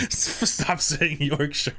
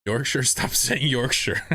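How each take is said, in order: First: Very slow, higher "Stop saying Yorkshire", stretched out in mock despair; drawn-out plea. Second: Slow, laughing "stop saying Yorkshire" with a higher pitch; laughing plea. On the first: Streamer mock-begging chat to stop saying Yorkshire. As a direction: drag each word out like a begging whine. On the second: Streamer laughing as he begs chat to drop Yorkshire. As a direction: laugh through a pleading "Yorkshire". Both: Real, not acted.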